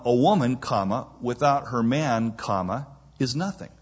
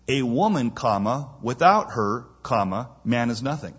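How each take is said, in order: First: The second break comes after 'man'. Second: The second break comes after 'her'.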